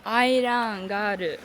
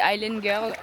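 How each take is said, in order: First: "Island Girl" drawn out slowly in a mock Japanese accent. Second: Said in the usual way. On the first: Vlogger posing as island princess, mock Japanese accent. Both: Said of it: "C'est Island Girl avec l'accent japonais".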